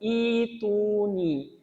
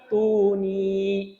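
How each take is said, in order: First: The word starts with an i vowel, lengthened. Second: The word is joined onto the previous word. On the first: The reading restarts after a stop. "kalau kita berhenti di fis samawat ... maka ini menjadi kasroh dan ini menjadi ya sukun" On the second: The reading continues without stopping. "kalau kita lanjut, ini tetap uh, sukun hamzahnya"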